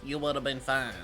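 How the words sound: It is said in a put-on Southern accent.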